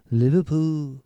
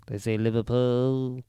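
First: A better Scouse "Liverpool", said more confidently; "Liverpool" in a fuller Liverpool accent. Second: A self-described terrible attempt at a Scouse "Liverpool"; "Liverpool" said slowly with an unsure Liverpool accent. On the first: Trying again to say it like a Liverpudlian, in a Liverpool accent. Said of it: "That's better". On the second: Showing a friend how Liverpool locals say it, in a bad Liverpool accent. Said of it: "It's probably a terrible version of it". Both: Shown as a demonstration.

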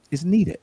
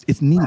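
First: Said in the usual way. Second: "needed" said louder, driven home; emphatic repeat. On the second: Shown as a demonstration. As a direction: repeat "It's needed" with firm, louder weight on "needed".

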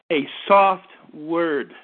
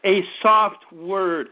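First: Slow, low and gentle, drawn out; soft word. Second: Slow, low, gentle repeat; soft word again. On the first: Preacher to congregation, modelling a slow, gentle soft word. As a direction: say it softly, like calming someone. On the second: Preacher repeating to congregation, slow gentle soft word. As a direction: let the "soft" linger softly. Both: Shown as a demonstration. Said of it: "A gentle voice turns away wrath".

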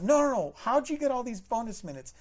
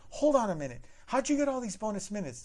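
First: Much louder and higher, refusing to drop it; loud, high insistent repeat; insistent manager. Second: Higher, louder, firm manager cutting in; a pointed, higher manager voice; sassy manager. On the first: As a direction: hammer the question home. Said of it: "manager repeats question". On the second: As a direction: stop the caller short with authority. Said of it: "And she's like". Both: Retold or imitated.

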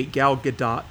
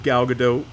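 First: Gadot with a sounded final T, "guh-DOT"; corrected pronunciation. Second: Said in the usual way. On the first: Shown as a demonstration. Host correcting his own slip, Gadot ending like "dot". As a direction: say Gadot to rhyme with "dot", not "doe". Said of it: "G-, excuse me". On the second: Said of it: "It's not pronounced Godot".

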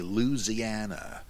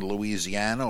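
First: Louisiana squeezed to three syllables, "Loo-zee-AN-a", dropping the "i", slower; Mississippi pronunciation. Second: Said in the usual way. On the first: Shown as a demonstration. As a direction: Louisiana said the old Mississippi way, "Looziana". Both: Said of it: "or as we used to say when I lived in Mississippi".

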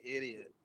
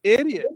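First: "Idiot." muttered under the breath, almost silent; inner thought. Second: "Idiot." said out loud, higher and louder; emphatic repeat. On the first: Retold or imitated. Judging a Southern-accented stranger in his head, barely audible. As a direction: drop to a near-silent private verdict. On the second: Real, not acted. Repeating his verdict for friends, louder and higher. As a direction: punch the word out as a laughing verdict. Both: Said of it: "I would think automatically".

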